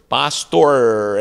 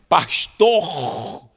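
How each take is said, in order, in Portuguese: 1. O R final é enrolado, como o R americano. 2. O R final é falado com sotaque carioca. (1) "enrolando a língua" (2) "quando eu fui para o Rio de Janeiro"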